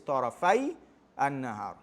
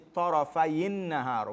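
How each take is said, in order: First: The first word ends without a linking i vowel. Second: A short i vowel links the two words. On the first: "I just took out the kasra so you can see the origin" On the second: "when you read it together, you say"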